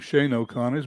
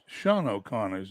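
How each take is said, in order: First: The first name has the vowel of 'shane'. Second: The first name has the vowel of 'sean'. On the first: The speaker calls it wrong. "I would have called him Shane O'Connors" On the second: The speaker calls it right. "is the pr- pronunciation of that"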